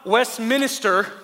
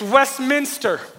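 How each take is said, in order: First: The word ends with an extra syllable, 'minister'. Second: The word ends with two syllables, 'minster'. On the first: The speaker calls it wrong. "it's not Westminster" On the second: The speaker calls it right. "it's Westminster. A minster is a church"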